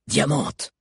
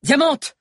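First: Slightly raised commanding call; controlled command, a little lifted; firm order. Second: Very high, loud shouted command; high-pitched cry of command; urgent order. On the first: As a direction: call the name to give an order. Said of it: "ordonna Hakan". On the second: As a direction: call the name out sharply as an order. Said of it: "ordonna-t-il". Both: A narrator's reading.

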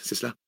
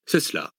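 First: CELA softly lifted as a question; questioning tune. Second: CELA settling low as a firm answer; confirming statement. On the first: Listener checks it is a controversy, questioning tune on CELA. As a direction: ask "c'est cela?" softly, higher at the end. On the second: Scholar confirms the controversy, settled statement tune on CELA. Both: A narrator's reading.

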